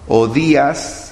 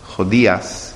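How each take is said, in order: First: The name begins directly with a vowel. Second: The name begins with a breathy h sound. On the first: This is the Spanish form of the name. "en español" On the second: This is the Hebrew form of the name. "en el hebreo suena así"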